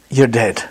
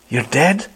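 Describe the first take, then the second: First: DEAD falling as a settled fact; final statement. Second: DEAD swooping up high as a question; puzzled question. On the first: Preacher answering the puzzle for congregation, final statement. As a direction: state it with "dead" dropping, no question. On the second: Preacher challenging congregation over a puzzling verse, puzzled question. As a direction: ask it with "dead" rising sharply. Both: Acted.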